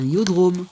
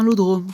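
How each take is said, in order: First: The word begins with an E sound. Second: The word begins with an L sound. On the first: The speaker calls it right. "c'est un, un iodrome. C'est un I majuscule" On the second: The speaker calls it wrong. "C'est pas un lodrome"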